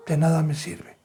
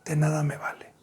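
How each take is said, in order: First: Said in the usual way. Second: Whisper. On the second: Real, not acted. Preacher whispers to the church, de nada me vale. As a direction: drop to a breathy whisper on nada.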